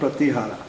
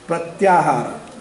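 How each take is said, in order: First: The second syllable is a plain 'ti' sound. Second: The second syllable glides as 'tya' before 'ha'. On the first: The speaker calls it wrong. "the correct pronunciation is not pratihara" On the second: The speaker calls it right. "the correct pronunciation is"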